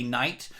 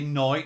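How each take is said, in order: First: It is said with an American vowel. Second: It is said with a Birmingham vowel. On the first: "for you guys in America, you say" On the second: "Over in Birmingham, you'd say"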